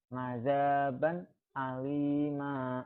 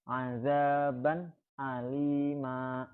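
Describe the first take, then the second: First: The last word ends with a long vowel. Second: The last word ends with a long vowel.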